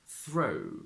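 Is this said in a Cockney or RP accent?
Cockney. The oo becomes an oh-like diphthong.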